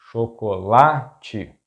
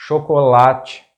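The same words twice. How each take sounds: First: Chocolate slowly split, sho - ko - la - chi; syllable by syllable. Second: Chocolate in Portuguese as one word, loud stress on LA; stress on second-to-last syllable. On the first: Teacher breaking down an example word, chocolate slow in syllables. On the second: Teacher giving an example word, chocolate stressed on LA. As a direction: say chocolate as sho-ko-LA-chi, joined up. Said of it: "stressed syllable is the second to last". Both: Shown as a demonstration.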